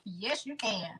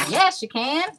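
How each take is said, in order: First: Soft, understated YES, YOU CAN; quiet aside. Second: YES, YOU CAN higher, rising at the end; rising emphasis. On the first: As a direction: say YES, YOU CAN softly, almost to yourself. First take, answers herself softly. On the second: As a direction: lift CAN up high for emphasis. Repeats it louder with rising tune. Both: Real, not acted.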